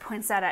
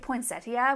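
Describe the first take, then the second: First: It uses the local regional pronunciation of the word. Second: It uses the standard pronunciation of the word. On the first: This is how people in the region say it. The speaker calls it wrong. "our region pronounce it, point, pronounces it poinsettia" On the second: This is the proper form that nobody there uses. The speaker calls it right. "which is I think proper"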